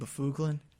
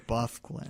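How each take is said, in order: First: The name has a full middle vowel. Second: The name has no middle vowel. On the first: The speaker calls it wrong. "I thought that that's how you name. That's how you pronounced it" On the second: The speaker calls it right. "they had the pronunciation and it said Buffglin"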